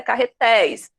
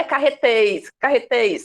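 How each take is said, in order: First: Carretéis with open éi sound. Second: Carretéis with closed e, like carretês. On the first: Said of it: "eu tenho o som de ei". (carretéis com som aberto de ei) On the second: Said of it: "Não é eu, não é". (carretéis com e fechado) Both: Shown as a demonstration.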